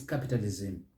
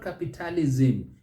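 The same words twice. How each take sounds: First: "capitalism" as CAP-italizm, softer and lower; correct stress. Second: "capitalism" as capi-TA-li-ZIM; wrong sing-song ending. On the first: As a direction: keep the end of "capitalism" light. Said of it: "it's capitalism". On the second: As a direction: lilt through the end of "capitalism". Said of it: "creating a sing-song". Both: Shown as a demonstration.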